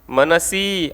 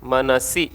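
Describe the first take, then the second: First: The final vowel is held long. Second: The final vowel is kept short. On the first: This is the Vedic form used in the mantra. "मनसी असं दीर्घ आलंय" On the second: This is the regular grammatical form. "सी ऱ्हस्व आहे त्या ठिकाणी"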